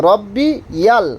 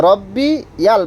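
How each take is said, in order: No difference in how they are said.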